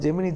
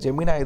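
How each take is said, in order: First: The name ends with an 'ee' sound. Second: The name ends with an 'eye' sound. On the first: This is how it is said locally. The speaker calls it wrong. "அது நம்ம ஊரில் தான் ஜெமினி ஜெமினின்னு" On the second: This is how it is actually said. The speaker calls it right. "ஜெமினாய் தான் actually"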